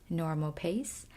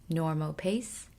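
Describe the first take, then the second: Both takes have the same delivery.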